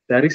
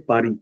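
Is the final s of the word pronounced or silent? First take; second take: pronounced; silent. First: The final s sound is pronounced. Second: The final s sound is silent. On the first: This is the English way to say it. The speaker calls it wrong. "Paris is an English word" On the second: This is the French way to say it. The speaker calls it right. "So in French we say Paris. We don't pronounce S"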